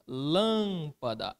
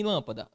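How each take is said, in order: First: "Lâmpada" with a long, drawn-out first syllable; stressed syllable demo. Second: Said in the usual way. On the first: Shown as a demonstration. Teacher showing the class the tonic syllable, first syllable of "Lâmpada" held long. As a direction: slowly stretch the LÂM of "Lâmpada". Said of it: "Aqui está a minha sílaba tônica". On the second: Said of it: "olha aqui em lâmpada".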